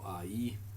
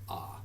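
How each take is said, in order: First: It glides from 'ah' to 'ee'. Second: It is a single plain 'ah' vowel. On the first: The speaker calls it wrong. "We don't go I" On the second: The speaker calls it right. "that's going to be pronounced ah"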